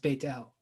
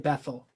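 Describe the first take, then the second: First: The middle consonant is a t sound. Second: The middle consonant is a th sound. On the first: This is the original Hebrew form. "So technically pronounced Beit El" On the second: This is the usual English form. "but we usually say Bethel"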